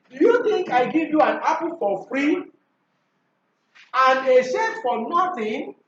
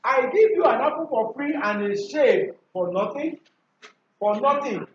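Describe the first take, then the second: First: High-pitched question, lifting "free" before the pause; questioning intonation. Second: Statement with "for nothing" falling at the end. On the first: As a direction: model it as a question, "Do you think" pitched high. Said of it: "Rising tone". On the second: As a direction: let "nothing" drop, as a finished statement. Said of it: "Remember, fall tone". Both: Shown as a demonstration.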